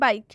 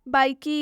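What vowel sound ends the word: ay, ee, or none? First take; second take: none; ee. First: The word ends on the k with no vowel. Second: The word ends with an added ee sound. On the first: The speaker calls it right. "इसका हम उच्चारण कर रहे हैं बाइक, क्योंकि यहाँ पर ई silent है" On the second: The speaker calls it wrong. "हम इसका उच्चारण बाइकी या बाइके नहीं कर रहे हैं"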